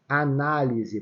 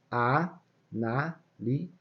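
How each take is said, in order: First: Said in the usual way. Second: "análise" stretched very slowly into a-ná-li-se; syllable by syllable. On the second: Shown as a demonstration. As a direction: break "análise" into four separate syllables, pausing between each. ("análise" bem devagar, sílaba por sílaba) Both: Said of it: "vou falar de novo".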